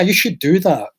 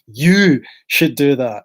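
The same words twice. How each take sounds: First: No word is strongly stressed. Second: The word you is strongly stressed.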